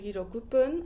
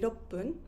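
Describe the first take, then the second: First: The full number is said before pun. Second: The number is shortened with a brief stop. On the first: The speaker calls it wrong. "I don't say hirokupun" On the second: The speaker calls it right. "I say iroppun"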